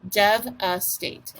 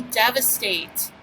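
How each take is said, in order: First: DEVASTATE slowly as dev, a, state; three separated beats on devastate, v closing the first; split into syllables. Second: Said in the usual way. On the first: Shown as a demonstration. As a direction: break devastate up for a speller. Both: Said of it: "let's do our syllables".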